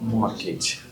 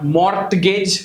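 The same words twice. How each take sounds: First: The T is silent. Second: The T is sounded. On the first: The speaker calls it right. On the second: The speaker calls it wrong.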